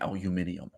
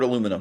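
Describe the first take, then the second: First: The word is said the British way. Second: The word is said the American way. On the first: "Some of you will be punching your desks in anger that I'm not saying aluminium. The British Empire is over" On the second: "The word aluminum has two official pronunciations"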